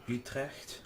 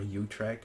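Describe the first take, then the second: First: The name is said with Dutch sounds. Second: The name is said with English sounds. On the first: "the Dutch" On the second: "English pronunciation"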